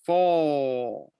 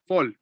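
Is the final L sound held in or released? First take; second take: held; released. First: The final L sound is held inside. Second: The final L sound is released outward. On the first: The speaker calls it right. "You have to hold it" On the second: The speaker calls it wrong. "So it's not it's not fall. Not like that"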